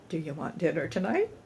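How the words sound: It sounds light, easy and carefree. It is a simple, genuine offer. The speaker calls it right. "A genuinely uh, easy breezy question"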